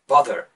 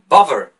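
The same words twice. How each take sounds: First: The middle consonant is a th sound. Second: The middle consonant is a v sound.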